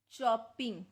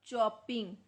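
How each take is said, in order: Both takes have the same delivery.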